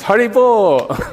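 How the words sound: It is said as joyful congratulations. Well done. "It can mean congratulations"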